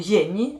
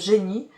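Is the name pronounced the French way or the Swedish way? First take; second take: Swedish; French. First: The name is pronounced with Swedish sounds. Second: The name is pronounced with French sounds.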